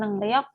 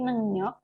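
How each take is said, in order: First: The second syllable begins with an r sound. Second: The second syllable begins with an n sound. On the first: The speaker calls it wrong. "bukan nengriok" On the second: The speaker calls it right. "tapi nengyok"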